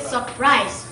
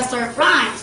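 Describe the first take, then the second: First: "surprise" said without its first r, "suh-prise"; dropped first R. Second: Said in the usual way. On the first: Shown as a demonstration. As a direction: say "surprise" as "supprise". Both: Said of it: "there is no R if you want to".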